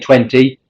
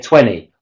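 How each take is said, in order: First: The middle t sound is clearly pronounced. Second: The middle t sound is dropped. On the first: The speaker calls it wrong. "why we don't say" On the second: The speaker calls it right. "but we say ... The t and the d will disappear"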